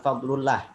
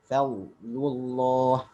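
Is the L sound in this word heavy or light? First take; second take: light; heavy. First: The double L is thin and light. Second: The double L is thick and heavy. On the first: The speaker calls it wrong. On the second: The speaker calls it right. "maka dibaca dengan tafkhim"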